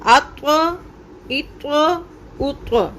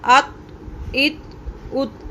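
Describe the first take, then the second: First: अत्व, इत्व, उत्व with a full bouncing त्व; echoed heavy release. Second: अत, इत, उत thin with no bounce; wrong flat release. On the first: Teacher demonstrating the correct echoed त्व. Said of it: "कैसे?". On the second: Teacher showing the wrong flat ending. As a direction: clip each ending short. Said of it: "तो ये गलत होगा". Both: Shown as a demonstration.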